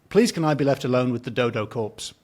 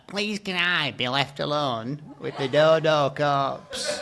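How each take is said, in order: First: It is said in the speaker's natural voice. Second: It is said in a put-on character voice.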